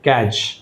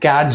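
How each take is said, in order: First: The word is said without a d sound. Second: The word is said with a d sound. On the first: The speaker calls it right. "క్యాచ్ అనాలి" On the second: The speaker calls it wrong. "అంతేగాని క్యాడ్జ్ అనకూడదు"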